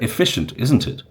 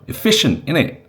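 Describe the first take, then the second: First: The tag is said in full, plainly. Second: The tag is swallowed, London South East style.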